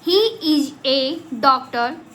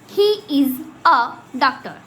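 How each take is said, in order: First: The article is a full 'ay' sound. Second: The article is a short reduced 'uh' sound. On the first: "normally kids कैसे पढ़ते हैं" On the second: "लेकिन अब इसको हम कैसे पढ़ेंगे"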